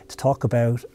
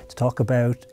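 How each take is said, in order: Both takes have the same delivery.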